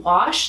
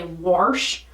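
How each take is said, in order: First: Said in the usual way. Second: Wash said as "warsh" with an added r. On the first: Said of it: "instead of saying wash". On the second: Retold or imitated. Imitating New England speech, drawn-out warsh. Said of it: "they say warsh".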